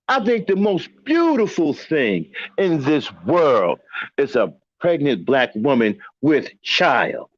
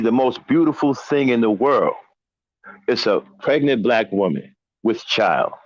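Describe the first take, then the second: First: It is said with strong emotional feeling. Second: It is said plainly, without extra feeling.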